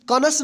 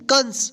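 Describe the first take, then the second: First: A full vowel separates the n and s. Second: The n runs straight into the s. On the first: The speaker calls it wrong. "कनस नहीं पढ़ेंगे" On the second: The speaker calls it right. "क्या पढ़ेंगे, कंस"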